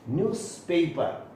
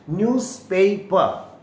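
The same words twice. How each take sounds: First: Said in the usual way. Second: न्यूज़पेपर said slowly with clear s, louder; careful demo. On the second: Shown as a demonstration. Teacher modelling न्यूज़पेपर slowly and louder for students. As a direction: spell out न्यूज़पेपर slowly, pronouncing each part. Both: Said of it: "इतना ही ठीक है".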